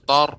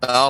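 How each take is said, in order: First: The vowel sounds like 'oh'. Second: The vowel sounds like 'ah'. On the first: The speaker calls it wrong. "jangan sampai eh, tanya menjadi huruf eh, o" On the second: The speaker calls it right. "bukan tor, akan tapi tar"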